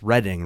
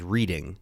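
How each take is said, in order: First: The word is pronounced differently from its spelling. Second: The word is pronounced the way it is spelled. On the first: The speaker calls it right. "It's how you're supposed to say it" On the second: The speaker calls it wrong. "it reads as Reading"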